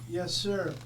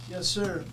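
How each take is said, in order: The two takes are said the same way.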